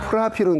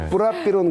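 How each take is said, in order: First: The name begins with an aspirated p sound. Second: The name begins with a tense, unaspirated p sound. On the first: It is the older way the name was pronounced. "그때는 이제 프라피론이라고 발음했는데" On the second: It follows the original country's pronunciation. "원래 그 나라의 발음을 따라간다 해서 뿌라피론이라고 이제 바꾼 건데요"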